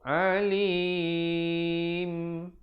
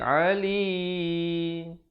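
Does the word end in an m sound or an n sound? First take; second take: m sound; n sound. First: It ends with fully closed lips, an m sound. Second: It ends sounding like an n, lips not closed. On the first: The speaker calls it right. "ditutupkan rapat mulut menyempurnakan bunyi mim" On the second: The speaker calls it wrong. "kedengaran macam huruf nun, salah"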